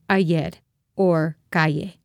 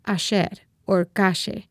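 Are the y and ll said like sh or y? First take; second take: y; sh. First: The y and ll sound like y. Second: The y and ll sound like sh.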